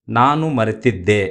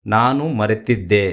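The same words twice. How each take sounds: The two takes are said the same way.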